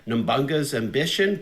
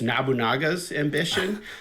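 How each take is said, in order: First: The name is said with a scrambled childhood pronunciation. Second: The name is said with its standard pronunciation. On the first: This is how it was said in childhood. The speaker calls it wrong. "as kids we pronounced it as" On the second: This is the proper name of the game. The speaker calls it right. "but it's"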